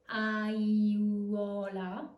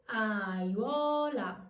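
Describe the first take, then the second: First: "aiuola" dragged out, a-ee-oo-o-la; wrong-way demo of "aiuola", each vowel stretched separately; three separate vowels, wrong way. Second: "aiuola" slowly in three syllables, a-ywo-la, falling; triphthong glide. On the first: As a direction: stretch every vowel of "aiuola" slowly, rising at the end. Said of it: "as three separate vowels". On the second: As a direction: correct demo of "aiuola", iuo gliding as one sound. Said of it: "you must use the technique". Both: Shown as a demonstration.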